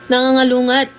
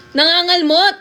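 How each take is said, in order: First: Nangangalungat read out as a puzzling unknown word; misreading the word. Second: Nangangalmot said clearly, ending on an understanding rise; correct word. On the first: Streamer reading a viewer's garbled word aloud, puzzled. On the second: Streamer realizing the viewer meant Nangangalmot, clearing it up. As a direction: land Nangangalmot as the word finally makes sense. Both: Shown as a demonstration.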